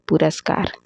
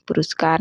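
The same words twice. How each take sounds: First: पुरस्कार said as "puraskar"; "pu-ras-kar" for पुरस्कार; correct pronunciation. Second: पुरस्कार said as "puruskar"; "pu-rus-kar" for पुरस्कार; wrong pronunciation. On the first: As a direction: say पुरस्कार with a after the r. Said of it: "पुरस्कार नहीं होते". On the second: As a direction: say पुरस्कार with u after the r. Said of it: "नहीं होते". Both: Shown as a demonstration.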